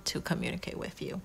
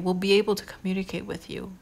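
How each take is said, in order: First: Soft whispered aside. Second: Said in the usual way. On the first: Real, not acted. Reader softly whispering a hopeful promise to the viewer. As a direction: breathe it like a secret. Repeated line, voiced then whispered.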